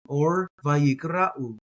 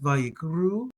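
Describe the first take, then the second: First: An 'a' vowel is heard before the final 'u'. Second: The word ends in a single 'u' sound.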